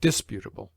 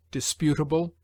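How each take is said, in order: First: Disputable with DIS stressed, DIS-putable; stress on first syllable. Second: Disputable with PU stressed, dis-PU-table; stress on second syllable. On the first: Reader showing the rejected accent, disputable stressed on DIS. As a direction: hit the first syllable of disputable, DIS, then let it fall. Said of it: "rather than". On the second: Reader giving the recommended accent, disputable stressed on PU. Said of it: "We should therefore say". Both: Shown as a demonstration.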